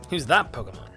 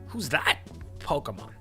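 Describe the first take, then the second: First: Said in the speaker's own ordinary voice. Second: Said as an impression of a famous actor.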